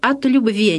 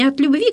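First: The word has an unusual old church ending. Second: The word has the ordinary modern ending. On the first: "в необычной грамматической форме" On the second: "как вот мы сейчас говорим"

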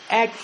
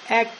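The two takes are said the same way.

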